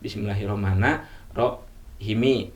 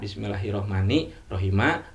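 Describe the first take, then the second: First: The first ends in a, the second in i. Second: The first ends in i, the second in a. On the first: "atau sebaliknya" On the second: "awal kasrah uh, ujung patah"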